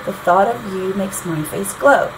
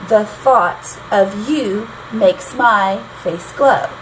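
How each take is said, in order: First: Said in the usual way. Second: Slow four beats: the THOUGHT of YOU makes MY face GLOW; iambic scansion. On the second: Shown as a demonstration. Teacher reading the next lyric, slow iambic stress. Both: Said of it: "still have that short, long".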